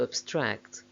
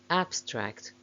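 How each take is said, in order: First: The stress is on the second syllable. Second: The stress is on the first syllable. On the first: It is used as a verb. "main stress of the verbs is on the second syllable" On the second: It is used as a noun. "main stress of the nouns is on the first syllable"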